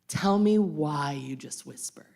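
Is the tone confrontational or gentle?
confrontational. It is said loudly and confrontationally. The speaker is pushing back pettily. "I immediately up my volume"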